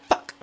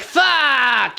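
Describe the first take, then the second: First: The word is short with a hard final k. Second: The word is held and drawn out. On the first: The speaker calls it right. "Hard K, short life. ... like you're spitting it out at people" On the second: The speaker calls it wrong. "You don't really say it like, ... You don't really stay on it"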